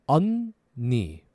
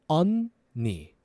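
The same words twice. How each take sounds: The two takes are said the same way.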